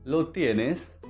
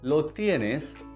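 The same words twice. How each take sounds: The two takes are said the same way.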